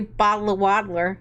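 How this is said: It is said in an American accent. "Americans say"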